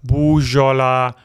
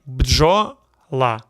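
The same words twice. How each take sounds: First: Бужола with an "oo" vowel after the B and no D; botched бужола, opening on "boo-zho"; mispronounced бджола. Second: Бджола with B, D and J run together, no vowel between; careful бджола, opening on a tight "bdzh" cluster; correct pronunciation. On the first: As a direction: say бужола, putting a full vowel into the opening cluster. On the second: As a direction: say бджола in two parts, "bdzho", then "la". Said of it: "Correct way". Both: Shown as a demonstration.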